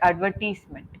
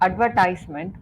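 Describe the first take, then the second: First: The third syllable sounds like 'tease'. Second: The third syllable sounds like 'ties'. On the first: The speaker calls it wrong. "you were saying it like advertisement" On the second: The speaker calls it right. "That was the word advertisement"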